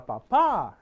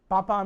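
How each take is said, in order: First: "Papa" with the stress on the last syllable, pa-PÁ, louder; stressed papá. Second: "Papa" with the stress on the first syllable, PA-pa, louder. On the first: Teacher contrasts the word for dad: "Papa" said pa-PÁ. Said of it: "is, uh, dad". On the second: Teacher quizzes students on "Papa" said PA-pa. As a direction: say "Papa" as PA-pa, meaning potato. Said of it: "Papa is potato". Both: Shown as a demonstration.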